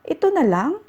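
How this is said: It is said as a question.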